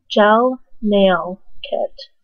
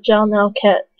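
First: "gel nail kit" drawn out word by word; slow careful repeat. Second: Said in the usual way. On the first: Real, not acted. Vlogger repeating the product name for viewers, slow "gel nail kit".

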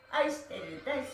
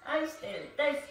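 No difference in how they are said.

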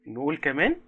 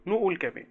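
First: كمان lifted and held as a question; rising prompt. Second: Firm repeat with a fall on كمان; falling prompt. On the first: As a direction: nudge the kids with a rising كمان. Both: Shown as a demonstration.

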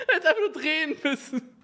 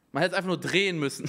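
First: Laughing through the words; giggling while speaking. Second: Said in the usual way. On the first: Real, not acted. Repeats the line while laughing.

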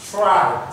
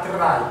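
First: "try" with a breathy T, almost "chry"; English TR with air in "try"; aspirated TR. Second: "try" with a hard French T, no air; the wrong, French-style start to "try"; unaspirated TR. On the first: (« try » avec un T soufflé) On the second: (« try » avec un T français sec) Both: Shown as a demonstration. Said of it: "c'est pas try".

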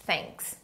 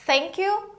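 First: "thanks" as one short, soft syllable; model pronunciation. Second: "Thank you" in two words, higher with a rise; model pronunciation. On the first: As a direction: end "thanks" softly on the ks. ("thanks" curto, numa sílaba) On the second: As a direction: lift "you" at the end of "Thank you". ("Thank you" com subida no fim) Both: Shown as a demonstration. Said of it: "a gente pronuncia assim".

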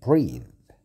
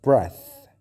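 First: Whispered. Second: Breath said much louder, short e, hard th; loud demo. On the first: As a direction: breathe whispered with no voice. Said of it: "شوف النطق". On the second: Teacher stresses breath against breathe, loud. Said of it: "لكن نفس". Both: Shown as a demonstration.

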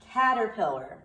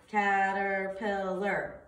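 First: Said in the usual way. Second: Caterpillar drawn out slowly, syllable by syllable; slow syllable count. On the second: Shown as a demonstration. Teacher counting syllables for students, slow and drawn out. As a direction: stretch caterpillar into four slow beats. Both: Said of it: "let's see".

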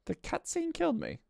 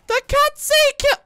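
First: High but soft, deflated complaint; subdued disbelief. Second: Very high, loud screamed complaint; outraged screech. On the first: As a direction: say it small and high after the outburst. Repeats complaint after long pause. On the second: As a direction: scream it in disbelief. Outraged at dying in game. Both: Real, not acted.

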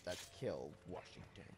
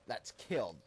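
First: Low hushed menacing voice; evil whisper. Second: Said in the usual way. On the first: Shown as a demonstration. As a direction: murmur it like a villain. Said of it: "sound very evil". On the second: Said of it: "If I said that in number three".

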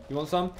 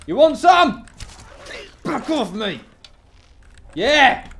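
First: Said in the usual way. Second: High, loud challenge; yelling a dare at a foe; loud taunt. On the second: Real, not acted. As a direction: shout it at the enemy, spoiling for a fight. Taunting enemy in fight.

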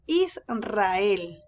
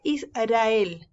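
First: "Israel" slow, held "Is", then a trilled R; strong rolled R. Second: "Israel" misread with a weak single-tap R; soft tapped R. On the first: Teacher correcting the misreading, strong rolled R. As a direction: draw out "Israel" with a hard rolled R. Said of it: "es Israel". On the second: Teacher showing how it is not read, soft R. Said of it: "no se lee". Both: Shown as a demonstration.

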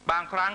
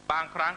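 Both takes have the same delivery.

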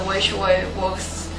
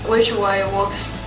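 No difference in how they are said.

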